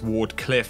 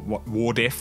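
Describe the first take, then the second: First: All consonants are pronounced fully. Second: The cl sound in the middle is dropped. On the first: The speaker calls it right. "which is actually how you say it" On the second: The speaker calls it wrong. "or Wardiff"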